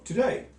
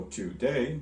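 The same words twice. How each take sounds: First: "today" run together, rising on DAY; quick light "to", stressed "day" in "today"; iambic stress. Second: "today" slowly split as TO, DAY; even, split stress. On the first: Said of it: "you go today". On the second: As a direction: give both halves of "today" equal weight. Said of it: "You don't go today". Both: Shown as a demonstration.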